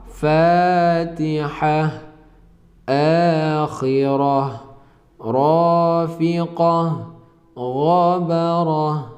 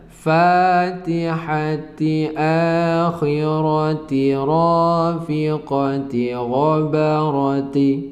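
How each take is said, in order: First: Each word ends with an 'h' sound. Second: Each word ends with a 'ti' sound. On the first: The reading stops at this word. "Kalau diwakaf" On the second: The reading continues on without a stop. "Ti kalau disambung"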